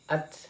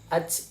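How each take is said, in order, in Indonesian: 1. Konsonan terakhir adalah bunyi 't' yang jelas. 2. Konsonan terakhir berbunyi 'ch', bukan 't'. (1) "Tapi dia dibaca at" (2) "itu tidak boleh dibaca ac"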